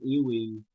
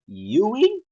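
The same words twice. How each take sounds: First: The name begins with an 'ee' sound. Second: The name begins with a 'you' sound. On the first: The speaker calls it wrong. "I said E. I pronounce it as as E, and now I'm being told I'm wrong" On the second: The speaker calls it right. "It's pronounced as U, like Europe"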